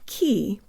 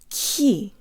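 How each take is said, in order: First: The k has little air behind it. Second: The k has a strong puff of air. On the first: The speaker calls it wrong. "not ki" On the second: The speaker calls it right. "Put more air through on the ka, not ki, but ki"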